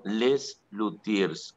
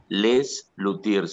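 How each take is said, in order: First: "[name]" said very slowly and clearly; slow spelled-out name. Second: "[name]" said very slowly, each syllable drawn out; slow spelled-out name. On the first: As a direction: draw out "[name]" word by word. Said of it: "Véanlo". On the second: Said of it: "El grupo se llama [name]". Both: Shown as a demonstration.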